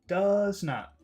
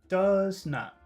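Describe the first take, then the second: Both takes have the same delivery.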